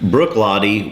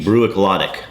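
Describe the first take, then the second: First: The name ends with an 'ee' sound. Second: The name ends with an 'ick' sound. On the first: This is the native Gaelic pronunciation. "the Gaelic pronunciation" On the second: This is how a local reader would say it from spelling. "to me, would be"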